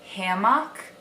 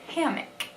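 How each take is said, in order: First: It is said with a Wisconsin pronunciation. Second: It is said with a Southern pronunciation.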